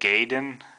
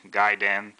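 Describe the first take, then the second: First: The first syllable sounds like 'gay'. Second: The first syllable sounds like 'guy'. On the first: The speaker calls it wrong. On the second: The speaker calls it right. "something close to guy"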